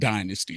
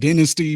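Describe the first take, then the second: First: The word is said the American way. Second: The word is said the British way. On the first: "we in America pronounce it dynasty" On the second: "They do pronounce it dynasty"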